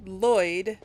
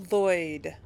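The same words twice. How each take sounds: The two takes are said the same way.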